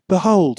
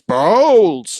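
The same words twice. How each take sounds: First: It is said plainly, without dramatic emphasis. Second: It is said with dramatic, forceful emphasis. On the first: The word conveys little. The speaker calls it wrong. "if you're just saying behold, it just doesn't cut it" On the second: The word conveys its full meaning. The speaker calls it right. "the proper pronunciation of behold in English is behold"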